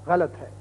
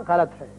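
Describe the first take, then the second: Both takes have the same delivery.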